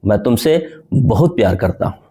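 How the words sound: The word बहुत carries the stress. The amount of love is very great. "बहुत प्यार करने पर मैंने जोड़ दिया।"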